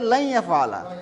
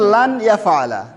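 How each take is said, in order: First: The n sound merges into the following y. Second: The n sound is clearly pronounced before y. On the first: "কিন্তু লেখা আছে লাই ইয়াফআলা" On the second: "আমরা পড়ছিলাম লান ইয়াফআলা"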